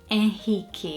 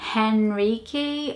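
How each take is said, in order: First: The name is said with Portuguese pronunciation. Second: The name is said with English pronunciation. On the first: "In Portuguese, we would say Henrique" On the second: "I think in English um, pronunciation, I'd probably say Henrique"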